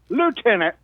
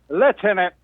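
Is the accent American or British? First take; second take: American; British. First: It is said with an American accent. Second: It is said with a British accent.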